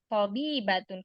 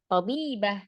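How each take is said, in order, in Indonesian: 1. Kata ini berakhir dengan bunyi -atun penuh. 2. Kata ini berakhir dengan bunyi -ah pendek. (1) "Kalau dibaca wasal" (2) "kalau disukunkan"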